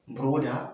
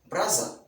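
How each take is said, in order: First: The middle consonant is a d sound. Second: The middle consonant is a z sound.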